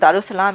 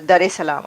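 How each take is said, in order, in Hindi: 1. नाम को जोड़कर Darussalam कहा जाता है। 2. नाम को अलग-अलग करके Dar es Salaam कहा जाता है। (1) "this is not दारुसलाम" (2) "it is दरे सलाम"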